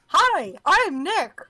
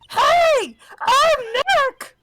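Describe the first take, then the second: First: It is said at a normal, quieter volume. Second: It is said louder, almost shouted.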